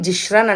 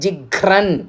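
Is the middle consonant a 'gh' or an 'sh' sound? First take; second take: sh; gh. First: The middle consonant is an 'sh' sound. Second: The middle consonant is an aspirated 'gh' sound. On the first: The speaker calls it wrong. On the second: The speaker calls it right.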